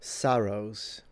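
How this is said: The first vowel is very open, old-fashioned. This is an older style of speech.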